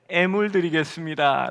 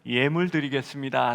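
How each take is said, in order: First: The first syllable begins with a plain vowel. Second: The first syllable begins with a 'y' glide. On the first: The speaker calls it wrong. "애들이 애물 애물 이러면서 막 웃곤 했습니다" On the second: The speaker calls it right. "이제는 예물 드리겠습니다 라고 발음할 줄 압니다"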